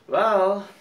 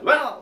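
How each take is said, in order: First: It sounds hesitant and doubtful. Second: It sounds energetic, like starting something.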